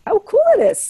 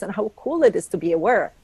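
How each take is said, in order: First: Higher, louder delighted repeat of "cool"; excited echo. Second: Said in the usual way. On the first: Shown as a demonstration. To friends, delighting in awareness, excited. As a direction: savor the word "cool" with delight.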